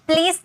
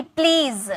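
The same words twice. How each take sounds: First: "प्लीज" ending in a voiceless s; wrong s ending. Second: "प्लीज" ending in a buzzing z; voiced z ending. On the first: Teacher showing students' mistake in "प्लीज", final s. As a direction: say "प्लीज" as "plees". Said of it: "प्लीज नहीं". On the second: Teacher correcting students with "प्लीज", final z voiced. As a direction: voice the last sound of "प्लीज" as z. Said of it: "ज होता है". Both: Shown as a demonstration.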